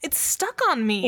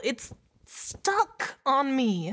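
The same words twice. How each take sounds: First: High panicked voice, "stuck" hit hard; alarmed, punching the word "stuck"; panicked, stress on stuck. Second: Very slow, high, "on" leaned into; drawn-out horrified realization; slow dread, stress on on. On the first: Panicked realization. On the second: Dawning dread, slowed down. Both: Acted.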